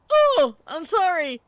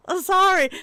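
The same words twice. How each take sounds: First: High, slow startled sorry; caught-off-guard oh, I'm sorry; flustered apology. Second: High, loud, near-crying sorry; teary panicked apology; mortified sorry. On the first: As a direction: apologize in a rush of shock. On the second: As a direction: beg forgiveness in a panic. Retold mortified apology, gasping. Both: Retold or imitated.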